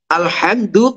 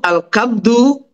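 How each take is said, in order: First: The middle consonant is a breathy h sound. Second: The middle consonant is a hard k sound.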